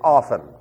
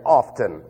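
First: The t in the middle is silent. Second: The t in the middle is pronounced. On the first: The speaker calls it right. "The T is silent" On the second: The speaker calls it wrong. "You're showing your ignorance"

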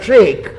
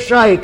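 First: The vowel sounds like the one in 'seek'. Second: The vowel sounds like the one in 'shake'. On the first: This is the usual way to say it. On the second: This is how it is said in Georgia.

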